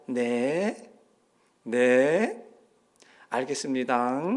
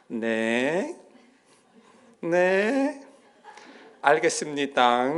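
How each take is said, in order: First: Humbly agree, half whispering; meek yes. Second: Meek phone yes. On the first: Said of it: "갑자기 톤이 바뀌는 거예요". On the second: Mother answers the pastor, suddenly meek. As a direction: answer politely like a good deacon. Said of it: "전화 오니까". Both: Retold or imitated.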